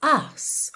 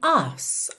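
First: The R is silent, British style. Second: The R is silent, British style.

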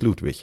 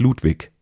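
First: The word ends with a soft ich sound. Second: The word ends with a hard k sound. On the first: This is the standard pronunciation. "im Hochdeutschen ist es natürlich König Ludwig" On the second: This is a regional house style. "der Bayerische Rundfunk spricht ... Ludwig. Das ist Lokalkolorit"

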